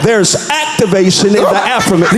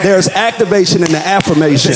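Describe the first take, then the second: First: It is said in a preaching pastor's style. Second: It is said in a plain speaking voice.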